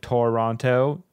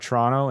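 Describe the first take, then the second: First: It is said with an American accent. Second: It is said with a Canadian accent. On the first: The speaker is from the United States. "instead of Toronto" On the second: The speaker is local. "here we say ... or Toronto"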